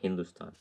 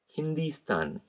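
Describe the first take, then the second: First: The second syllable has an 'oo' vowel. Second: The second syllable has an 'ee' vowel. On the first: The speaker calls it wrong. "not Hindustan" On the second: The speaker calls it right. "Hindi, H I N D I"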